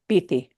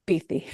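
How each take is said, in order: First: The middle consonant is a th sound. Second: The middle consonant is a th sound.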